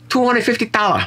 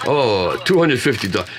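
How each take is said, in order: First: Put-on caricatured Chinese accent, pitched way up; mock seller's price in a high, exaggerated Chinese accent. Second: Put-on Japanese accent at normal pitch. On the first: Joking about a Japanese shop's price, wrongly in a high Chinese accent. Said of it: "That was a Chinese accent". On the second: Correcting his impression of a record shop clerk, mock Japanese accent. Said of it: "The right accent is".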